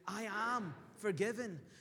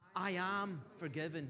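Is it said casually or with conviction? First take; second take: with conviction; casually. First: It is said with strong, heartfelt conviction. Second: It is said plainly, without strong conviction.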